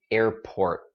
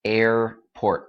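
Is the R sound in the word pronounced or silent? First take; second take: pronounced; pronounced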